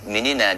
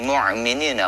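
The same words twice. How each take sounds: First: The consonant after 'mu' is a glottal stop. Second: The consonant after 'mu' is a pharyngeal sound. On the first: The speaker calls it right. "bukan mu'minina dia ucapkan ... harusnya pakai hamzah" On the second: The speaker calls it wrong. "tapi mu'minina ... Kalau mu'minina itu pakai ain"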